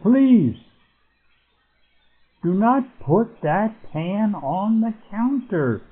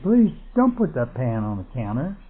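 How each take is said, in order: First: Do not is said as two separate words. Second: Do not is contracted into one word. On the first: The speaker is giving it emphasis. "so we use that as emphasis" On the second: It is the ordinary, unemphatic statement. "And we might say"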